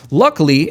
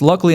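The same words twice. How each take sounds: First: "Luckily" leaned on, falling at the end; stressed luckily. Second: "Luckily" emphasized with a rising end; stressed luckily. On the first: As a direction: press hard on "Luckily" and let it fall. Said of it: "I cannot emphasize the word luckily enough". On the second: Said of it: "I can't stress the word luckily enough". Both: Acted.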